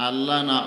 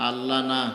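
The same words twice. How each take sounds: Both takes have the same delivery.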